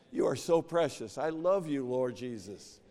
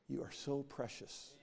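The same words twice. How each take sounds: First: Fervent loving prayer. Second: Soft loving prayer. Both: Retold or imitated. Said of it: "don't say".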